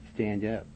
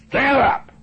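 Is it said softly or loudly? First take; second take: softly; loudly. First: It is said softly and weakly. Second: It is said loudly and strongly.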